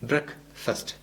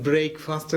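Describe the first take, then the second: First: The first vowel is a short 'eh' sound. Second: The first vowel is a long 'ay' sound. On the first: The speaker calls it right. "ട്രക്ക് എന്ന് പറയുന്ന പോലെയും മസ്റ്റ് എന്നൊക്കെ പറയുന്ന പോലെയാണ്" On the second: The speaker calls it wrong. "ശരിക്കും അത് ബ്രേക്ക്ഫാസ്റ്റ് അല്ല"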